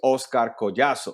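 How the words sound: The name is said with a Spanish accent. This is the name's original pronunciation. "the way you really pronounce that is"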